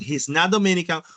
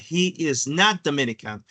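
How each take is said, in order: First: The word is is shortened onto he. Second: Every word is said in full, unshortened. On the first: "O voy a hacer la contracción" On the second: "lo voy a decir de manera muy formal"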